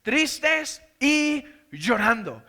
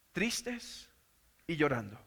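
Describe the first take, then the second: First: Tristes y llorando dragged out slowly, each word weighted; slow, weighted answer to his own question; slow emphasis. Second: Much softer and lower reading of tristes y llorando; soft subdued reading; quiet read. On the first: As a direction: lean hard on Tristes, stretch the whole phrase. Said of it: "¿cómo estaban los discípulos?". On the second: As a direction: read tristes y llorando softly, letting it fall. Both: Shown as a demonstration.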